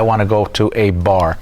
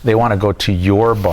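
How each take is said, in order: First: "a" said as a separate, weighted word; stress on A. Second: "your" picked out against the rest; stress on YOUR. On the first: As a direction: lean on "a" to mean just any. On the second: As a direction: lean on "your" to single it out. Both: Shown as a demonstration. Contrasting any bar with theirs.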